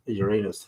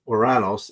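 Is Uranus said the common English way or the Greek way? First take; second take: common English; Greek way. First: The name is said in the common English manner. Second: The name is said in the Greek manner. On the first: It sounds improper. The speaker calls it wrong. "I can't say that" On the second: It sounds more classy. The speaker calls it right. "as the way the Greeks pronounce it"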